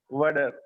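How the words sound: It is said in an American accent. "if it is comes to the American accent, they said that for water they say water"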